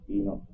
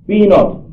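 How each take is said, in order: First: Much softer repeat of Be not; quiet echo. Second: Said in the usual way. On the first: Shown as a demonstration. Preacher repeating the heading to the congregation, softly. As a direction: let it fall away softly, like an echo.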